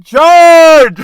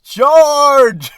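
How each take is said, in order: First: Very loud, high mock yell; yelled charge. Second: High, loud hammed-up charge call; mock battle cry. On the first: Managers yelling from their office, a very loud mock battle cry. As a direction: belt it like a boss rallying troops. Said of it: "they're yelling". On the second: Mocking managers who yell from their office, a hammed-up high battle cry. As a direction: play a pompous boss crying charge.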